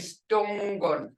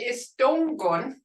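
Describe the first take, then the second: First: The opening E is dropped from the word. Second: The word begins with an E vowel sound. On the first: This is how most speakers really talk. "the way I really speak ... I say Stongon" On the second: This is the form that is taught. "instead of saying Estongon"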